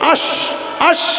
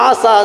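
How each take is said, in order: First: The consonant is an sh sound. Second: The consonant is an s sound. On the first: The speaker calls it right. "শিন উচ্চারণ হবে" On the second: The speaker calls it wrong. "শিন উচ্চারণ করতে হুজুর পারতেন না, হুজুর খালি আসাস বলতেন"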